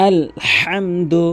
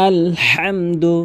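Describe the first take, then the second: No difference in how they are said.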